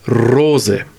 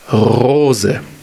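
First: The R is trilled with the tongue tip. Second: The R is trilled with the uvula. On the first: "rollende R, bayerisch" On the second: "Dann hinten das Zäpfchen"

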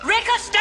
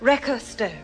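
First: It is said loudly. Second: It is said at a normal, quieter volume.

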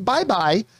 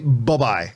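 First: The first syllable is a full 'bye'. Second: The first syllable is a short 'buh'. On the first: "I don't say B-Y-E, B-Y-E" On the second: "I do the B-U-H, B-Y-E pronunciation"

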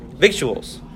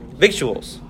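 First: A 'k' sound is heard before the 't'. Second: The same.

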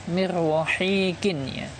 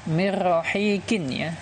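The two takes are said the same way.

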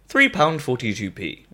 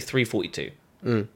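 First: The amount is said with the word pounds. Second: The amount is said without the word pounds. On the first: "They expect to hear £3.42" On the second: "I say £3.42. ... that sounds like 342"

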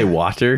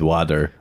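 First: The middle consonant is a clear T sound. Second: The middle consonant sounds like a D. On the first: "Jeff does not say water" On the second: "Two D's"

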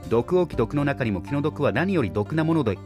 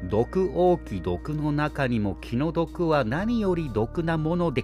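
First: The phrase is read at a fast pace. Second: The phrase is read at a slow pace.

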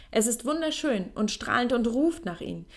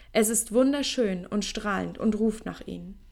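Both takes have the same delivery.

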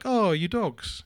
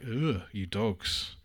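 First: It is said fondly, as to nice dogs. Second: It is said with disgust, as to nasty dogs.

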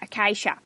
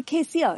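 First: The name is said in a broad Australian accent. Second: The name is said in a posh accent.

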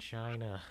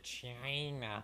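First: The word is said in an ordinary pronunciation. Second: The word is said in a mimicked, odd pronunciation.

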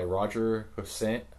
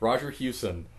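First: The surname sounds like Hussain. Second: The surname sounds like Hewson. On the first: The speaker calls it wrong. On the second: The speaker calls it right.

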